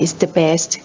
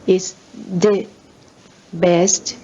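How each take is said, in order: First: The word 'the' has a reduced vowel. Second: The word 'the' has a full vowel. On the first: It is an ordinary sentence. "ก็คือชวาคือไม่เน้นนะคะเป็นประโยคปกติ" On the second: Special emphasis is given to the word. "ก็คือเน้นนะคะ"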